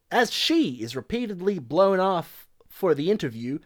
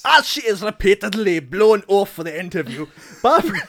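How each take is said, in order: First: Put-on slight, wobbly Southern accent; attempted Southern accent. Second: Loud attempt at a Scottish accent; Billy Connolly. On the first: Podcaster reading review aloud, attempted Southern accent. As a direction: read it with a hint of Southern. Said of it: "Southern boy". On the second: Podcaster reading review for co-hosts, exaggerated Scottish accent. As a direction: belt it out in hammed-up Scottish. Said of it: "Billy Connolly impression".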